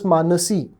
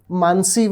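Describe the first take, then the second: First: A short vowel sounds between n and s. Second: No vowel sounds between n and s. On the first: This is how Marathi speakers say it. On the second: This is how Hindi speakers say it.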